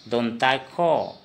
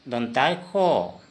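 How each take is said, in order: The two takes are said the same way.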